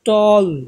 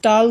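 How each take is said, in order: First: The vowel is a rounded 'aw' sound. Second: The vowel is an open 'ah' sound. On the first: The speaker calls it right. "বলতেছি টল, অ উচ্চারণ করতেছি" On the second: The speaker calls it wrong. "টাল বলতেছি না কিন্তু"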